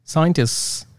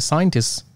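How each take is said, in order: First: A consonant in the final cluster is dropped. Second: A consonant in the final cluster is dropped.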